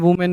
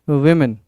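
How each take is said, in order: First: The first syllable sounds like 'woo'. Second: The first syllable sounds like 'wi'. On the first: The speaker calls it wrong. "कोई वुमेन वुमेन नहीं कहेगा" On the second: The speaker calls it right. "क्या है एक सही pronunciation? विमेन"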